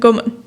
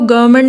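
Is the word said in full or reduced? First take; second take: reduced; full. First: A consonant in the middle is dropped. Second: Every sound of the word is pronounced in full. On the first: "गवर्नमेंट बोल देंगे" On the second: "गवर्नमेंट नहीं बोलेंगे"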